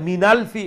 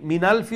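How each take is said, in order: Both takes have the same delivery.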